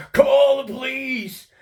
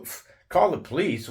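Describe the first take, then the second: First: Much higher, slower mock shriek of "Call the police!"; retold scream. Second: Higher pitched, disbelieving echo of "call the police"; incredulous question. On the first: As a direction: ham up his panicked yell. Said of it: "That's how he responded". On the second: Retold or imitated. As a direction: throw his words back at him, baffled. Repeating his demand in disbelief.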